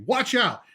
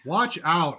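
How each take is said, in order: First: It is said with lively, enthusiastic energy. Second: It is said flatly, with little energy. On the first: The speaker calls it right. "it should be" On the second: The speaker calls it wrong.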